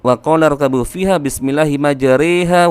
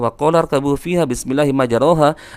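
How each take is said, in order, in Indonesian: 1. Vokal setelah huruf r condong ke e. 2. Vokal setelah huruf r adalah a terbuka. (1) "cenderung miring, cenderung kasrah, cenderung berbaris bawah" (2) "yang bacaan aslinya adalah"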